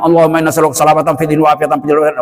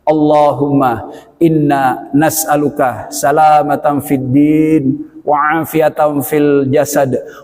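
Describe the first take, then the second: First: It is said quickly, rushed together. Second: It is said slowly, in separate pieces. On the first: The prayer is made in a hurry. The speaker calls it wrong. "Jangan ... cepet-cepet" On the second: The prayer is made calmly and respectfully. The speaker calls it right. "Pelan-pelan. ... Putus-putus"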